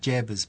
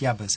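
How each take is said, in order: First: The name begins with a J sound. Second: The name begins with a Y sound. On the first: The speaker calls it wrong. "I always want to say Jabbers" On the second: The speaker calls it right. "but it's Yabbers"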